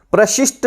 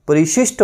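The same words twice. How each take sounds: First: प्रशिष्ट said with a clipped प्र cluster; the wrong form प्रशिष्ट, said as a warning; wrong pronunciation demo. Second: परिशिष्ट said with a full परि; the correct परिशिष्ट, said clearly; correct pronunciation demo. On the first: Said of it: "प्रशिष्ट नहीं होता". (प्रशिष्ट का गलत उच्चारण) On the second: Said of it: "परिशिष्ट होता है". (परिशिष्ट का सही उच्चारण) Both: Shown as a demonstration.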